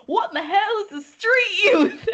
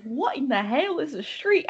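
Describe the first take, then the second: First: High, loud, hammed-up Southern twang; exaggerated Southern accent, pitched way up; deep Southern accent. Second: Lightly imitated Southern friend; attempted Southern accent. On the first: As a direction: imitate a very Southern friend, laughing through it. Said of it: "in the most deep southern accent". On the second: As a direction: try a Southern accent and not quite get there. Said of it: "I can't even do a southern accent".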